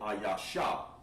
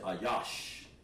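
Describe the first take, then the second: First: The word ends with an added vowel sound. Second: The word ends on the sh sound. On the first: The speaker calls it wrong. "you don't want to say ayasha" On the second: The speaker calls it right. "You want to say ayash"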